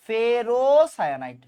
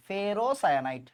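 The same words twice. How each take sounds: First: ফেরোসায়ানাইড stretched slowly syllable by syllable; slow careful naming. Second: Said in the usual way. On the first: Shown as a demonstration. Teacher drilling the name slowly for students. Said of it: "teacher repeats name slowly". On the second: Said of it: "quick repeat after slow take".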